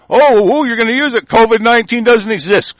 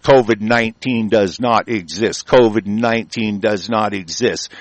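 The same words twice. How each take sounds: First: High-pitched, scornful outburst; exasperated objection. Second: "covid nineteen does not exist" low, word by word; deliberate emphatic repetition. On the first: Speaker interrupting the article he reads, exasperated. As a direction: jump in high, cutting the reading off. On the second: Speaker hammering "does not exist" at officials, deliberate. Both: Real, not acted.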